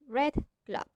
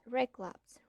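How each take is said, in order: First: The d of red is a clear d. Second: The d of red sounds like g. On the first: "instead of" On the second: "We say"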